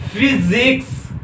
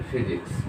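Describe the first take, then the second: First: "फिजिक्स" slow and high, each syllable drawn out; slow sounded-out word. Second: Said in the usual way. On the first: Shown as a demonstration. Teacher has students try pronouncing it, "फिजिक्स" slowly sounded out. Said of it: "इसका जरा pronunciation खुद से करने की कोशिश कीजिए".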